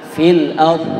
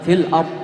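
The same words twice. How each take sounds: First: The final sound is held and drawn out. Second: The final sound is cut off quickly. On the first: The speaker calls it right. "sempurnakan sifat istitolahnya" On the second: The speaker calls it wrong. "jangan terlalu cepat. Fil ard, udah selesai"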